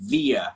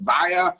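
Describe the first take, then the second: First: The first vowel sounds like 'ee'. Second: The first vowel sounds like 'eye'. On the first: "you can say via" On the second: "You can say wire"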